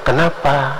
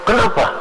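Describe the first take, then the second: First: It is said in a soft, gentle tone. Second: It is said in a harsh, aggressive tone.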